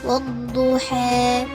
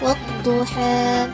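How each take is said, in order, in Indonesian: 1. Vokal akhir itu condong ke 'e'. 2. Vokal akhir itu jelas 'a' terbuka. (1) "dengan imalah" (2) "dibaca dengan fathah"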